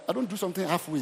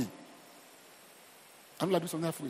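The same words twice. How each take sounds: First: Said in the usual way. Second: Slow, softer whisper; hushed, slow, breathy repeat. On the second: Shown as a demonstration.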